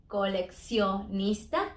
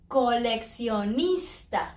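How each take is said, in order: First: Coleccionista slow and soft, split into syllables, rising at the end; slow split demo. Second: Coleccionista slowly, syllable by syllable, falling at the end; slow syllable demo. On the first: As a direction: lay out coleccionista slowly and quietly, ending up. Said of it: "it is split". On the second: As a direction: spell out co-lec-cio-nista slowly, ending down. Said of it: "that double C". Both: Shown as a demonstration.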